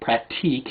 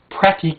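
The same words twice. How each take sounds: First: The word is said with a French-style pronunciation. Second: The word is said with an Americanized pronunciation. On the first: The speaker calls it right. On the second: The speaker calls it wrong.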